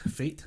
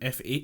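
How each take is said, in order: First: It is said as one single word. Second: It is said as a letter, then a number.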